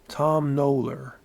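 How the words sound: It is said in an American accent. The name does not quite rhyme with tombola. "U S accent"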